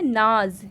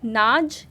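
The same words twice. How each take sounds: First: नाज said with a z, "naaz"; नाज with z, meaning pride; nukta z, meaning pride. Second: नाज said with a hard j, "naaj"; नाज ending on a clear j, no nukta; नाज with j, meaning grain; plain j, meaning grain. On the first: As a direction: end नाज on a buzzing z sound. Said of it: "यानी कि गर्व होना". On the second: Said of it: "यानी कि अनाज". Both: Shown as a demonstration.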